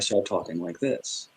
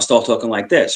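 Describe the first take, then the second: First: It is spoken slowly. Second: It is spoken quickly. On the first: The speaker is calm. The speaker calls it right. "if I'm normally not upset" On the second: The speaker is upset. The speaker calls it wrong. "I'll start talking really fast"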